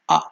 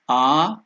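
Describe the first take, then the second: First: The vowel is held only briefly. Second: The vowel is held for a long time. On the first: "one unit of time" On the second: "that is pluta"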